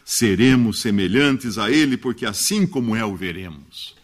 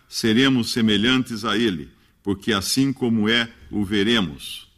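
First: It is read in a natural, expressive human voice. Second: It imitates a flat, cadenced electronic reading voice.

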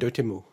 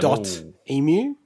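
First: The name runs together as one word. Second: The name is split into two words. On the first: The speaker calls it right. "they call it Dotemu. It's like three syllables" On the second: The speaker calls it wrong. "So I was reading it as dot emu"

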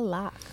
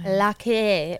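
First: The name ends plainly, with no added vowel. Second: The name ends with an added 'ay' vowel.

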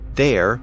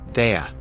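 First: The word ends with a clear r sound. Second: The word ends with an uh sound, no r.

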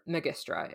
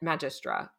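First: The word is pronounced the classical Latin way. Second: The word is not pronounced the classical Latin way.

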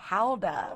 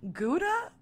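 First: The word has a Dutch-style pronunciation. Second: The word has a typical American pronunciation. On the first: "I like the pronunciation. I just, I'm not from Holland" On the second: "just because I'm American, I have to say Gouda"

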